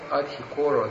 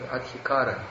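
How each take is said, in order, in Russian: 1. Слово заканчивается на звук о. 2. Слово заканчивается на звук а. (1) "Вот мы поем сева адхикоро" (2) "А здесь адхикара"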